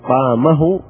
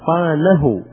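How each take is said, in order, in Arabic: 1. الحرف الأوسط صوت م. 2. الحرف الأوسط صوت ن.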